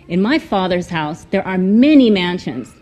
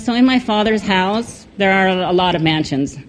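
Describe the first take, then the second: First: It is said in a warm, happy tone. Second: It is said in a flat, serious tone.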